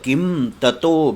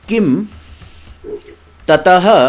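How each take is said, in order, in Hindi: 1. दूसरा शब्द 'o' ध्वनि पर समाप्त होता है। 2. दूसरा शब्द हल्की साँस वाली 'ah' ध्वनि पर समाप्त होता है। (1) "किम ततः विसर्गों का ऊ हो गया है।" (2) "ये पदच्छेद हो रहा है।"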